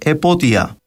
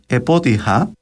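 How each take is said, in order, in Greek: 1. Πριν από το τελικό φωνήεν δεν έρχεται σύμφωνο. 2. Πριν από το τελικό φωνήεν έρχεται ο ήχος h. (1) "έως και «επότια»" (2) "με δασί πνεύμα δηλαδή"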